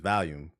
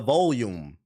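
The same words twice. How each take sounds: First: The word is pronounced in a relaxed, natural way. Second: The word is pronounced in a careful, forced way. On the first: The speaker calls it right. "That shit is volume" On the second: The speaker calls it wrong. "That don't sound right"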